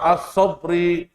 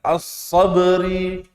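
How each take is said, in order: First: The b is closed off without any echoing bounce. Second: The b is released with a clear echoing bounce. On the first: The speaker calls it wrong. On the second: The speaker calls it right. "diperjelas kol-kolahnya"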